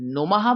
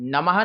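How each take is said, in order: First: The first vowel is a rounded 'u' sound. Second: The first vowel is an open 'a' sound. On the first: The speaker calls it right. "नुमः बोलना है" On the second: The speaker calls it wrong. "नमः नहीं बोलना है"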